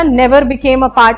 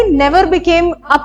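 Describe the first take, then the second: First: Never became a part, slow, each word weighed; slow emphasis. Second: Said in the usual way. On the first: Shown as a demonstration. Teacher to students, mocking an extreme option, slow stress. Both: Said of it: "इतना extreme statement सही नहीं होता है".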